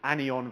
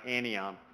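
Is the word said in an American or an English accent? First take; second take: English; American. First: It is said in an English accent. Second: It is said in an American accent. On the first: "if you're English, it's anion versus any" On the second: "if you're American, it's like anion"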